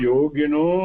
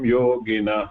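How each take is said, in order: First: The word ends in an 'o' vowel. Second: The word ends in 'ah' with breath. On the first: The word runs straight on into the next word. "விடாம யோகினோ யஸ்யாந்தம் சொல்லி படிக்கணும்" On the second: The word ends a phrase before a pause. "நிறுத்த சமயத்துல அந்த விசர்க்கம் கரெக்டா சொல்லணும்"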